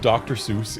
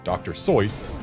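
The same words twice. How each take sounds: First: The name is said the widely used way. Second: The name is said the original, less common way. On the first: "widely accepted" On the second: "the actual correct pronunciation"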